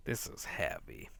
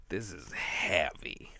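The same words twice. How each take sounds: First: "This is heavy" as a winded, unvoiced whisper; "This" barely voiced, breath running out; breathless whisper. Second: "This" stressed and drawn out, falling; slow, heavy stress. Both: Real, not acted. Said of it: "this is a heavy book".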